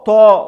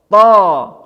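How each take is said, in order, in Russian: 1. Гласный звучит как O, губы округлены. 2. Гласный звучит как A, губы не округлены. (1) "Мы должны говорить не со, то" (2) "а мы должны говорить са, ва, та, за, не вытягивая губы"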